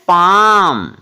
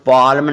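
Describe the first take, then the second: First: The L sound is silent. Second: The L sound is pronounced. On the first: The speaker calls it right. "क्या पढ़ना है, पाम" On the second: The speaker calls it wrong. "इसको पाल्म नहीं पढ़ना"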